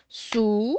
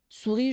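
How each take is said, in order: First: "Souris" split into "Sou", long pause, "ris"; two separate held beats in "Souris"; teacher sounding out "Souris" by syllables. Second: Said in the usual way. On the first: Shown as a demonstration. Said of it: "Attendez, on sépare la syllabe". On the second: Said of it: "on sépare la syllabe".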